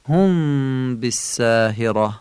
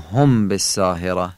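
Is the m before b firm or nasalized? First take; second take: nasalized; firm. First: The m is soft and held with nasal hum. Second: The m is firm and has no nasal hum. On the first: The speaker calls it right. "میم ساکنه نزد ب هم قنه داره هم سست تلفظ میشه" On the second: The speaker calls it wrong. "نمیگیم"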